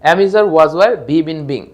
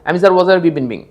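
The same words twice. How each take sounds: First: The list is said at a moderate pace. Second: The list is said at a very fast pace. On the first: "আপনারা আমার সাথে বলে ফেলবেন" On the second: "আরো দ্রুত বলবেন"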